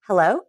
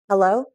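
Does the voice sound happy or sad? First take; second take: happy; sad. First: It sounds happy and bright. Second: It sounds sad and depressed.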